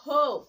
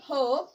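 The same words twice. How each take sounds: First: হোপ with a long o, as in "hope"; long vowel. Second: হোপ with a short o, as in "hop"; short vowel. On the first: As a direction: say হোপ louder, with "oh". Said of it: "vowel ই যোগে উচ্চারণ". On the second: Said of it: "vowel ই ছাড়া উচ্চারণ". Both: Shown as a demonstration.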